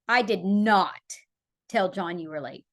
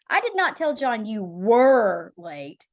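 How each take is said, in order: First: The stress is on "did not". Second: The stress is on "were".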